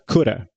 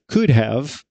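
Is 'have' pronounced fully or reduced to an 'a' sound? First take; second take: reduced; full. First: It is said as one word ending in 'a'. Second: Both words are said in full.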